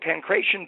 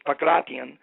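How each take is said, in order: First: The word is said the usual English way. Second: The word is said the way Greeks say it.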